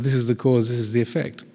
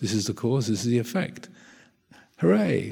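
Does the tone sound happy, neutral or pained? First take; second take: neutral; happy. First: It is said in a calm, neutral tone. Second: It is said in a delighted, happy tone.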